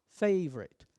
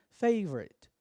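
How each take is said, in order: The two takes are said the same way.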